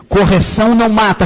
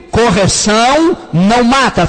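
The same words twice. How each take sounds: First: Said in the usual way. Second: Chanted, "Correção não mata" said slowly and louder, each word pressed; chanted, drive "Correção não mata" home like a congregation refrain; slow emphatic chant. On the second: Shown as a demonstration. Chanted, preacher leads the church in repeating, slow and loud. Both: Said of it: "Repita comigo".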